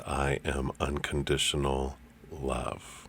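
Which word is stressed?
love. The word "love" is stressed.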